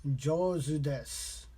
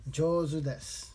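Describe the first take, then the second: First: Slow, careful learner's pronunciation of Jozu desu; slow practice take of Jozu desu. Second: Said in the usual way. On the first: Shown as a demonstration. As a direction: say Jozu desu slowly, syllable by syllable. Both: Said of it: "I'm gonna slow it down on my end".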